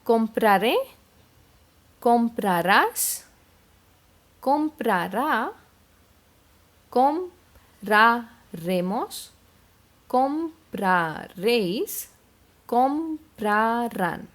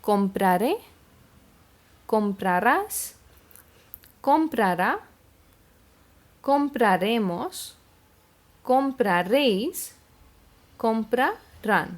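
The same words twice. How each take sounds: First: The words are spoken at a slower pace. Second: The words are spoken at a fast pace.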